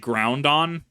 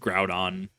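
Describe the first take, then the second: First: An extra n sound comes before the d. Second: No extra n sound comes before the d. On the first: "I used to say Groundon because I somehow like put an N there" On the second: "but I re- I read it as Groudon"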